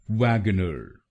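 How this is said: It is said in an American accent.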